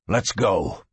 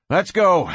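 First: Low growled order. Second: Higher-pitched brisk urging; brisk order. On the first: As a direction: growl it to your partner, pitched down. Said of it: "he growled". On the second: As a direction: get your partner moving. Cord heads out with deputy. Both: A narrator's reading.

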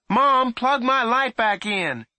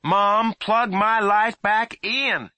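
First: Calling down. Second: Firm, high, slow demand; sterner voice. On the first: Boy calling down, first try. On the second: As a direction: say it sterner this time. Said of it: "he said in a sterner voice". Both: A narrator's reading.

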